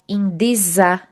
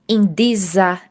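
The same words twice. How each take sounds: No difference in how they are said.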